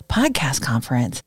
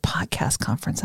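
First: Said in the usual way. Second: Hushed whisper of a divine word; whispered message. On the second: Retold or imitated. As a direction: breathe the words, barely voiced. Hearing God's quiet words.

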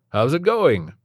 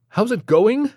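First: High, loud cheery greeting; chirpy doctor. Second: Much higher, louder rising echo of the question; incredulous echo. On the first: Doctor cheerily asks Stephen how it's going. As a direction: sing it out like an overly cheerful doctor. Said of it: "overly chirpy and grating voice". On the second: Stephen repeats the doctor's question back in disbelief. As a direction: throw his words back in disbelief. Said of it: "Stephen said". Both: A narrator's reading.

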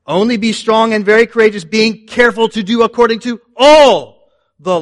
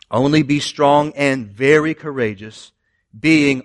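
First: "all" punched, higher and louder; stress on all. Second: Said in the usual way. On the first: Shown as a demonstration. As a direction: hit "all" hard, correcting the misquote. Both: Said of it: "It's not what it says".

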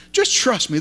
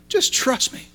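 First: Said in the usual way. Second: Soft whispered "Just trust me", barely voiced. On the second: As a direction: breathe "Just trust me" like a secret. God speaking gently to Peter.

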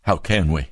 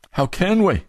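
First: Said in the usual way. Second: Rising anguish on the repeat; How can we, cried high; pleading, much higher. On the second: Shown as a demonstration. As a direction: ask it again, pitched way up.

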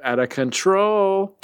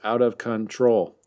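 First: High, slow, stretched out of control; slogan-style catchphrase. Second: Said in the usual way. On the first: Acted. Host hams up the t-shirt line, high and slow. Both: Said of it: "we should make that a t-shirt".

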